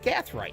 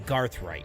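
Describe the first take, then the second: First: The first syllable has no r sound, Gath. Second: The first syllable has an r sound, Garth. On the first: The speaker calls it right. "I said it right" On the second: The speaker calls it wrong. "normally I say Garthright"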